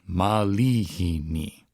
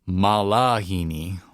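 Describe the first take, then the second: First: The second syllable has an E-like vowel. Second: The second syllable has an A vowel. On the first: The speaker calls it right. "You say malihini" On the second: The speaker calls it wrong. "Lots of times people sing malahini"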